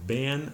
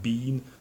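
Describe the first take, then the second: First: The vowel is a short eh sound. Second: The vowel is a long ee sound. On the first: This is a regional American form. "or even ban" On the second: This is the British form. "not like in Great Britain, not bean"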